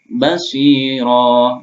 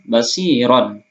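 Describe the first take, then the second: First: The word ends with a long vowel. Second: The word ends with an n sound. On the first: The speaker calls it right. "tapi kita baca sami'a alima basira" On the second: The speaker calls it wrong. "maka bukan sami'an aliman basiron"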